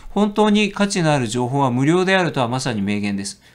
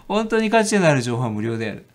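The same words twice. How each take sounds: First: Said in the usual way. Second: 価値 given a slight stress; weighing the quote. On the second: Shown as a demonstration. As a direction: savour 価値 in 本当に価値のある情報は無料である.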